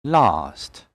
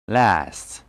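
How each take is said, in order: First: "Last" with long "ah"; British pronunciation. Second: "Last" with flat "a" as in cat; American pronunciation. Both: Shown as a demonstration. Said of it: "And American English will be".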